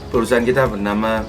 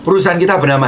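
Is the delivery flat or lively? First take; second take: flat; lively. First: It is slow and flat, without enthusiasm. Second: It is lively and emphatic, with enthusiasm. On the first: The speaker calls it wrong. "antusiasnya tidak ada, ... terlalu lambat" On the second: The speaker calls it right. "Bandingkan dengan saat Anda berbicara dengan yang kedua ini"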